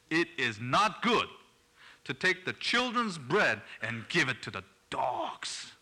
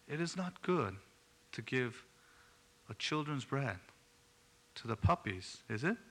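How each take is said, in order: First: It is said in a harsh, stern tone. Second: It is said in a soft, gentle tone.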